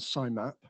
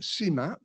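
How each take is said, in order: First: The I is said as a separate letter. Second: The I is not said as a letter. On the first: It sounds medical. The speaker calls it wrong. "sounds medical" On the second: It sounds gentle. The speaker calls it right. "I would say C MAP, because that kind of sounds much more gentle"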